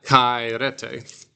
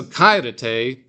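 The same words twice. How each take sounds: First: "Kairete" slowly, wrongly accented on RE; misplaced stress. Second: "Kairete" slowly, accented on KAI; stress on first syllable. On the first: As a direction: drag it out as kai-RE-te for "Kairete". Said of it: "because of the accent". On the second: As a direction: lean on the opening syllable of "Kairete". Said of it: "The accent is on the first one". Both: Shown as a demonstration.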